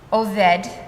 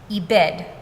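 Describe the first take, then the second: First: The word is said with the vowels o-e. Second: The word is said with the vowels i-e. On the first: The father was a wanderer. "my father was a wandering Aramean" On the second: The father was destroyed by an enemy. "my father was destroyed by an Aramean"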